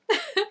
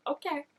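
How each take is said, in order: First: Squealed okay. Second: Said in the usual way. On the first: Retold or imitated. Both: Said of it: "leaning in, like".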